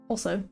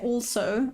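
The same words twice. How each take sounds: First: The L sound is left out. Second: The L sound is clearly pronounced. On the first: "It's almost like I leave out the L" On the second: "I don't say also"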